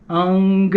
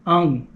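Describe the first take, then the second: First: "ung" ending on a clear g; full ung with g. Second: "ung" cut off before the g, nasal only; ung without g. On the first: Teacher demoing the full ung sound, clear g at the end. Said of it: "that's going all the way to the end". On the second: Teacher showing how to drop the g, leaving the nasal ung. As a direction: stop "ung" short, no g at the end. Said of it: "if you stop before the G". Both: Shown as a demonstration.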